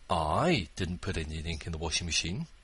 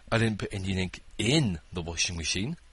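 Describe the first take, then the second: First: The word "I" is stressed. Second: The word "in" is stressed. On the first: Someone else did it. "But I know who did" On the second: It went somewhere other than inside. "I poured it on top"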